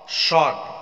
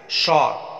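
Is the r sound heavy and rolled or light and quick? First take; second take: light quick; light quick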